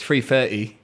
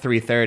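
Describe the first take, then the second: First: The words begin with an f sound. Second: The words begin with a th sound. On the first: "Instead of TH, it's like an F" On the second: "it's not 3:30"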